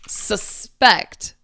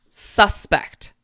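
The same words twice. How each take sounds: First: The stress is on the second syllable. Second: The stress is on the first syllable. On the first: It is the verb form. "The emphasis goes on the second part of the word" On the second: It is the noun form. "But the noun"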